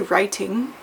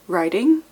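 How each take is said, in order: First: It is said in a mixed accent. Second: It is said in an American accent. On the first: It clearly means writing. The speaker calls it right. "so it's in between two accents" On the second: It sounds like riding a horse. The speaker calls it wrong. "if you say it with an American accent"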